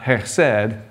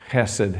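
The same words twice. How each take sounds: First: The stress is on the second syllable. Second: The stress is on the first syllable. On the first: The speaker calls it wrong. "Not chesed" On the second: The speaker calls it right. "the emphasis is on the first syllable"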